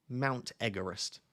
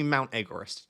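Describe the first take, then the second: First: MOUNT EVEREST drawn out slowly as "Mount Egg-erest"; slow, deliberate repeat. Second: Said in the usual way. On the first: Real, not acted. Streamer repeats his girlfriend's nickname for chat, slow and deliberate.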